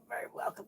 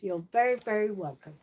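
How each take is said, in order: First: Soft breathy whisper. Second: Said in the usual way. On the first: Real, not acted. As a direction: whisper it gently to the doll. Repeats the thanks softly to the doll.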